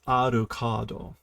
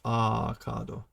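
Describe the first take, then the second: First: The 'ru' syllable is clearly pronounced. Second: The 'ru' syllable is dropped. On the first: "He pronounces the ru" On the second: "it's just Akado"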